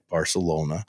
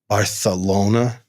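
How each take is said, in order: First: The 'c' is said as a plain 's' sound. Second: The 'c' is said as a lisped 'th' sound.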